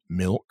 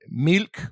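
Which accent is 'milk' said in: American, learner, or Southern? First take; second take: American; learner. First: It is said in a general American accent. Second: It is a careful, non-native sounding reading. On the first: "if you're speaking with an American accent" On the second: "the way you would read that as someone learning English"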